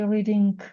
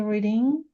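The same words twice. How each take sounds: First: The final g sound is clearly pronounced. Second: The final g sound is silent. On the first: The speaker calls it wrong. "Don't say reading" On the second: The speaker calls it right. "G isn't pronounced"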